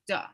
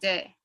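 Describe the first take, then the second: First: The vowel is a neutral, in-between 'uh' sound. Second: The vowel is a clear 'eh' sound. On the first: The speaker calls it right. "No, it's da" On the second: The speaker calls it wrong. "not with e"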